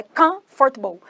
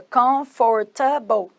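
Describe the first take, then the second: First: "comfortable" squeezed into two chunks, COMF-tble; English pronunciation. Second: "comfortable" read as if Portuguese, every syllable sounded; Portuguese-style pronunciation. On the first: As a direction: say "comfortable" in two beats, middle vowel swallowed. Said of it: "Não, é comfortable". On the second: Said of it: "Não é igual em português que seria". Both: Shown as a demonstration.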